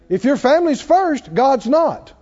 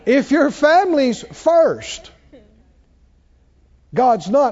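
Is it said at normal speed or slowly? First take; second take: normal speed; slowly. First: It is said at a normal speed. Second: It is said slowly and deliberately.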